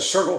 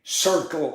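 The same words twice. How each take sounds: First: The ending is said as a plain 'l' sound. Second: The ending is said as a 'lee' sound. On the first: The speaker calls it right. "instead of" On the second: The speaker calls it wrong. "we'd say Lee"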